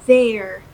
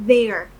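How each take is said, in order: The two takes are said the same way.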